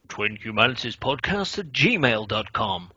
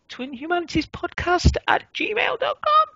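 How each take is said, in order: First: The voice falls at the end. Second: The voice rises at the end.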